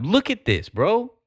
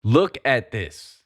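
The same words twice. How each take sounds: First: High, excited call-out. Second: Slow, heavy emphasis; slow and pointed. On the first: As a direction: point at it, thrilled. Excited pointing at a chart. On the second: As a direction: lay each word down slowly. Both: Real, not acted.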